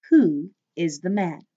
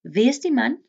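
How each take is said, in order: First: Said in the usual way. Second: "Wie is die man?" said as vee es tee mun, lifted higher; teacher repeating the Afrikaans; Afrikaans question. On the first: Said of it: "English translation". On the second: Shown as a demonstration. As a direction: Afrikaans V in wie with a raised tune. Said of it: "teacher models Afrikaans".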